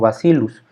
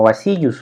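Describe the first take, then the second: First: The double L gets a Latin-style reading. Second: The double L gets a Spanish-style reading. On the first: The speaker calls it right. "lo decimos como Bacillus" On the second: The speaker calls it wrong. "no lo pronunciamos como Bacillus"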